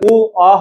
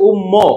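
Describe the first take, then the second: First: It is said as two open vowels, 'u-o'. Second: It is said as one closed 'umm' syllable. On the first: The speaker calls it right. "উ অ হবে" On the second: The speaker calls it wrong. "অনেকে এটার উচ্চারণ করে হচ্ছে উম্ম, উম্ম হবে না"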